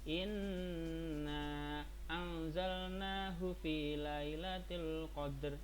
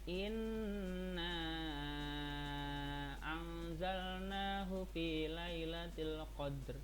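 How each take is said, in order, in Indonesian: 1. Huruf mad dibaca dua harakat. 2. Huruf mad dibaca panjang lima harakat. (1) "Itu dua harokat" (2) "Itu lima harokat"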